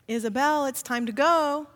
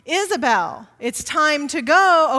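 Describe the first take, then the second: First: It is said at a calm, normal volume. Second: It is yelled in a loud voice.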